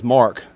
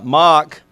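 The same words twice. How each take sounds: First: Said in the usual way. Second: Mock said with a short open Australian vowel and no r, a rough attempt; a quick, self-admittedly bad Australian Mock; Australian accent. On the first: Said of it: "as he says". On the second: Coach imitating his Australian punter saying his name Mock. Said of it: "That's a terrible Australian accent".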